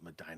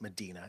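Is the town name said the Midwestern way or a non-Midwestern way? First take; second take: Midwestern; non-Midwestern. First: The name uses the local Midwestern pronunciation. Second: The name uses a non-Midwestern pronunciation. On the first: This is how the locals say it. "we pronounce it Medina because we're Midwestern" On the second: This is how outsiders might expect it. "but Medina"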